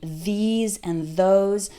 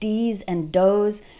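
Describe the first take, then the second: First: The words begin with a soft 'th' sound. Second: The words begin with a hard 'd' sound. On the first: The speaker calls it right. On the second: The speaker calls it wrong.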